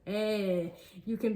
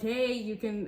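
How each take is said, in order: First: It is said in a put-on French accent. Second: It is said in the speaker's ordinary accent. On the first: The speaker calls it right. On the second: The speaker calls it wrong.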